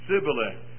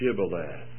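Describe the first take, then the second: First: The word begins with an s sound. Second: The word begins with an sh sound. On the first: The speaker calls it wrong. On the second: The speaker calls it right.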